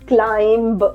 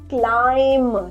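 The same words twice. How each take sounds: First: A b sound is heard at the end. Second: The word ends with no b sound. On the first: The speaker calls it wrong. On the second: The speaker calls it right.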